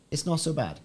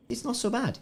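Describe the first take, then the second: First: Said in the usual way. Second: Squeaked up high, much higher. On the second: Acted. Streamer judging the green ship paint, high squeak. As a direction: pipe it up in a tiny high voice.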